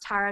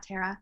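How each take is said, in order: First: The first syllable rhymes with 'star'. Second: The first syllable does not rhyme with 'star'. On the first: The speaker calls it right. "it's pronounced Tara" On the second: The speaker calls it wrong. "not Tara"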